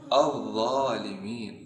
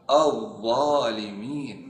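Both takes have the same delivery.

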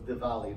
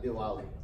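First: The middle consonant sounds like a V. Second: The middle consonant sounds like a W. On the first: The speaker calls it right. "we would pronounce an Indian W more like a V. So it's Diwali" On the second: The speaker calls it wrong. "not Diwali"

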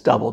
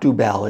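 First: The first vowel sounds like 'uh'. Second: The first vowel sounds like 'oo'. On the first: The speaker calls it right. "That's how you pronounce it properly" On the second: The speaker calls it wrong. "it is not Dubel"

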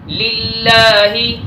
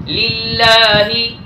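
No difference in how they are said.

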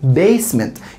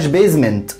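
First: The middle consonant is a hissing s sound. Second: The middle consonant is a buzzing z sound. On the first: The speaker calls it right. "يبقى ركز في حرف الاس جدا" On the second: The speaker calls it wrong. "ما بقولهاش basement"

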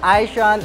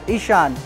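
First: The name begins with an 'eye' sound. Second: The name begins with a short 'ih' sound. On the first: The speaker calls it wrong. "Not Ishan, Aishan, everything" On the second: The speaker calls it right. "it's pronounced as Ishan"

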